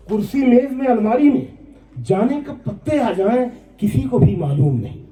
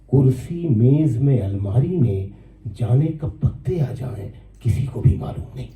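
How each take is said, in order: First: High, ringing mushaira repeat of the verse; poem recitation. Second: Poem recitation. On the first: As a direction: lift the verse high, settling on the last phrase. (ऊँचे सुर में नज़्म पाठ) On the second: First take of verse. (धीमे सुर में नज़्म पाठ) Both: Acted.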